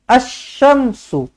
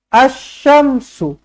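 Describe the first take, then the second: No difference in how they are said.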